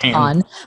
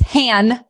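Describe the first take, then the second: First: The vowel differs from the one in Han Solo. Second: The vowel sounds like in Han Solo. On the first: The speaker calls it wrong. "not Han" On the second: The speaker calls it right. "It's Han"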